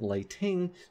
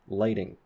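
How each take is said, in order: First: The middle consonant is a full t sound. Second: The middle consonant is a quick tap. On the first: The speaker calls it wrong. "this isn't lighting" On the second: The speaker calls it right. "this is lighting"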